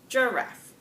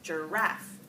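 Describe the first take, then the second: First: The stress is on the first syllable. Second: The stress is on the second syllable. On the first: "with strong stress on that first syllable" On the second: "weak, strong words that are two syllables"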